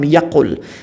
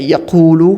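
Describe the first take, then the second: First: The word ends on a consonant, vowel dropped. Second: The word ends with a final vowel sound. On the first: The verb follows lam, meaning didn't. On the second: The verb has no particle before it.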